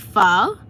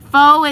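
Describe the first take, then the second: First: The word is said with a Vietnamese accent. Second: The word is said with an American accent. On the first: The speaker calls it right. "if you want to say it with the Vietnamese accents, it's actually pho" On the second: The speaker calls it wrong. "Faux is like the American pronunciation"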